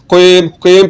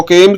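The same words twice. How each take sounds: First: कीम with a thick back q; heavy qaf. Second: कीम with a light, front k; thin kaf. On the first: Teacher modelling the thick letter, heavy qaf. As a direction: start कीम far back on the tongue. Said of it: "कॉफ को आपने मोटा पढ़ना है". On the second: Teacher showing learners the mistake, thin kaf. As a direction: say कीम with a fine k and clean ee. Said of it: "जो कि बारीक है". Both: Shown as a demonstration.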